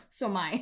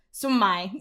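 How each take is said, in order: First: So am I forced out through clenched teeth. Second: Said in the usual way. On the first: A narrator's reading. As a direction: teeth clenched, biting down on pain. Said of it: "managed to say through clenched teeth". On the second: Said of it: "said Claudia".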